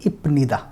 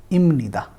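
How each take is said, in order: First: इपनिदा with a clear P sound before the N; wrong spelling-based reading. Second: इमनिदा with the P turned into M; nasalized pronunciation. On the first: Teacher shows the spelled reading इपनिदा. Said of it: "लेकिन यहाँ पर because फ is being followed by न". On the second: Teacher models the correct इमनिदा. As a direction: say इमनिदा, M flowing into N. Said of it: "यहाँ पे इसको हम म की तरह प्रोनाउंस करेंगे". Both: Shown as a demonstration.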